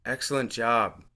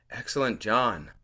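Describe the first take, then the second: First: Mildly soothing "Excellent job", ending on b; soothing instructor. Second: "John" ending in an n instead of a b; "Excellent, John" in two falling parts, n-ending; job heard as John. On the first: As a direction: say "Excellent job" as gentle class praise. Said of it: "with her soothing voice says". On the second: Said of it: "sounds like she's saying". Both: Acted.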